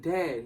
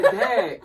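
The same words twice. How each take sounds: First: Said in the usual way. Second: High, loud retold yell to get through; acting out a frustrated shout; exasperated shout. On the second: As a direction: call out insistently, voice jumping way up. Repeats it as brother isn't catching on.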